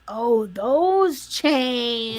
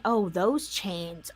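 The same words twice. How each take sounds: First: Oh, those chains stretched very slow; slow drawn-out take. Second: Said in the usual way. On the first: Shown as a demonstration. Repeating her own line in a slow drawn-out voice. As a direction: drag out those chains slowly.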